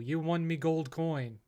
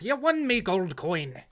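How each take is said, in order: First: It is said in a plain, ordinary voice. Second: It is said in a put-on leprechaun voice.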